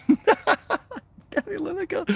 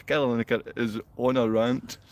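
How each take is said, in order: First: High slow falsetto mimicry of "Gary Lineker"; drawn-out squeaky mockery; parroting the commenter in a silly voice; mocking squeaky voice. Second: Said in the usual way.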